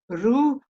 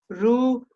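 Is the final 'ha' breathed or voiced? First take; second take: breathed; breathed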